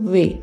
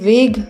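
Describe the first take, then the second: First: The word ends on an open vowel. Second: The word ends with a hard g sound. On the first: The speaker calls it right. "इसे वे बोलेंगे" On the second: The speaker calls it wrong. "इसे वेग नहीं बोलेंगे"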